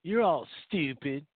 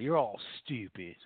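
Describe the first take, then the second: First: Slow, punched repeat of "You're all stupid"; emphatic repeat. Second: Said in the usual way. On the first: Acted. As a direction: hammer "You're all stupid" home slowly. Repeated insult, two takes.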